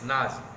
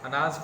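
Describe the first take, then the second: First: The opening 'a' vowel is left out. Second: The word starts with an 'a' vowel. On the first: The speaker calls it wrong. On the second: The speaker calls it right.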